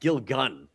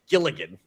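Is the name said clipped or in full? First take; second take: clipped; full. First: The name is said clipped, with a syllable dropped. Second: The name is said in full, every syllable sounded. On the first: This is how people commonly say it. "I always heard people say Vil- Vince Gilgun" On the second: This matches how the name is written. "definitely Gilligan. Like the way it's written"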